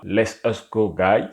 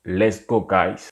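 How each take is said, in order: First: The words are split, with a separate 'us'. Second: The words are linked into one short 'let's'. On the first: The speaker calls it wrong. "ce n'est pas let's us go guys" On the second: The speaker calls it right. "c'est directement let's go guys"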